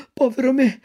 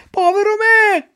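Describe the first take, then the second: First: High, dismayed cry of povero me; first lament. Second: Much higher, louder povero me cried out; anguished shout. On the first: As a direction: start the wail, not yet full. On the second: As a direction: let the second povero me burst into a wail. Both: Acted. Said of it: "gridò Pinocchio".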